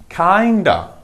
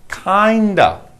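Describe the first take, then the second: The two takes are said the same way.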